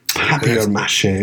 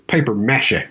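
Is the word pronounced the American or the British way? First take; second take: British; American. First: It is said with a British pronunciation. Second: It is said with an American pronunciation. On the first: "if I'm going to use the British way of saying it" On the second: "if I was going to say it like a U.S. citizen"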